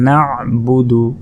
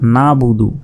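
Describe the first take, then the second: First: The middle throat consonant is clearly pronounced. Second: The middle throat consonant is left out. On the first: The speaker calls it right. "তাই বলতে হবে না বুদু" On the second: The speaker calls it wrong. "এই আইনের উচ্চারণ করি না"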